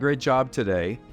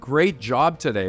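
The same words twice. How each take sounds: First: It is said flatly and without energy. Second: It is said warmly and with energy. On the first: The praise is not really encouraging. The speaker calls it wrong. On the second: The praise is sincere and encouraging. The speaker calls it right.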